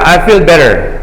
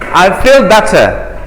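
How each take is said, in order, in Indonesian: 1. Diucapkan dengan aksen Amerika. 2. Diucapkan dengan aksen Inggris. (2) "Kalau British orang Inggris"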